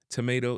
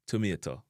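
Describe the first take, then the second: First: "tomato" as "tuh-may-doh"; English pronunciation. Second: "tomato" as "tu-mie-to"; crisp t and short final O in tomato; Jamaican pronunciation. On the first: Teacher giving the English word first, "tomato" as "tuh-may-doh". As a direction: say tomato with a flapped t. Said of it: "tomato in a English". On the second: Teacher giving the Jamaican version, "tomato" as "tu-mie-to". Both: Shown as a demonstration.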